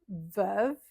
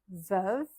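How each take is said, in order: No difference in how they are said.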